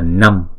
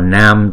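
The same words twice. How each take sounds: First: The vowel is short, for one beat. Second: The vowel is held long, for two beats. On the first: The speaker calls it wrong. "chứ không phải là Nam" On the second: The speaker calls it right. "Chữ này đọc là Nam ... chữ A này cũng là hai nhịp"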